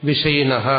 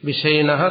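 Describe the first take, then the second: The two takes are said the same way.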